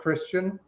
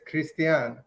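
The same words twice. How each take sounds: First: The name has an ordinary English pronunciation. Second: The name has a Romanian pronunciation. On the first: This is a simpler form for confused listeners. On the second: This is the name's true form.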